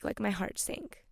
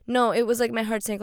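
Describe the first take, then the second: First: Quiet sinking disappointment; quiet heavy admission. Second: Louder, firm 'my heart sank' with stress on NO; emphatic correction with extra weight; emphatic insistence. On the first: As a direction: say it softly, letting it drop. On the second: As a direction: push the correction hard. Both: Real, not acted. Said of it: "not like".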